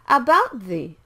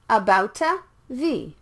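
First: The T and TH merge into one sound. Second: An extra vowel separates the T and TH. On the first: The speaker calls it right. "The T and the TH are similar sounds" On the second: The speaker calls it wrong. "not about a the"

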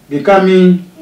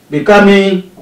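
The two takes are said the same way.

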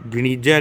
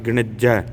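First: The middle 'i' vowel is long. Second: The middle 'i' vowel is short. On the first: The speaker calls it wrong. "ਗਣੀਜਾ ਨਹੀਂ ਕਹਿਣਾ" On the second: The speaker calls it right. "ਨਾਣੇ ਨੂੰ ਇਸ਼ਾਰੀ ਲਾ ਕੇ"

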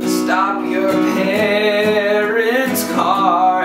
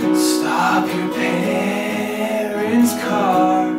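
First: The voice is tight and pressed. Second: The voice is breathy with air escaping.

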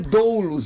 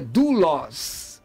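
First: The first vowel glides from o to u. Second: The first vowel is a plain u sound. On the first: The speaker calls it wrong. "não é doulos" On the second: The speaker calls it right. "é dulos"

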